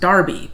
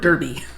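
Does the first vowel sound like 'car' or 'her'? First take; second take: car; her. First: The first vowel sounds like the vowel in car. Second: The first vowel sounds like the vowel in her. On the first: "it's pronounced Darby" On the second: "looking at it for us, D E R B Y, we would say"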